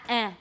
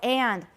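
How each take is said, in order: First: The word is cut to a bare vowel. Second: The word is said in its full form. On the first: "don't use eh" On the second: "强调的时候"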